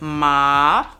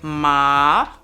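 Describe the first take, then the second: First: It is said with the tone meaning horse. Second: It is said with the tone meaning horse.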